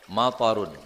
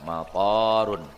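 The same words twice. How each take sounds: First: The second vowel is short. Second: The second vowel is long. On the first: Rain. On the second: An airport.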